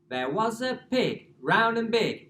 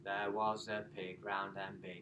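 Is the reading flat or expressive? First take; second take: expressive; flat. First: It is read expressively with a varied voice. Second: It is read flatly in one unchanging tone.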